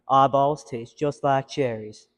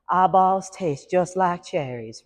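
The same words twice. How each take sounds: First: It is a low male voice. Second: It is a higher female voice.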